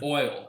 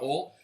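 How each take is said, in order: First: The word is said carefully, without a Southern accent. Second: The word is said with a Southern accent. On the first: "I have to like overpronounce right now" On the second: "it always comes out oil"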